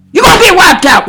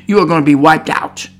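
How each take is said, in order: First: Sudden loud, emphatic outburst; forceful warning. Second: Said in the usual way. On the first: Real, not acted. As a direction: burst out with the warning. Warning repeated far more forcefully.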